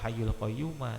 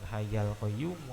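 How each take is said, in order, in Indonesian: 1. Kata kedua berakhir dengan vokal 'a'. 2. Kata pertama berakhir dengan vokal 'a'. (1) "atau hayyul qayyuma, itu malah salah-salah itu" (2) "bukan hayyal qayyumu"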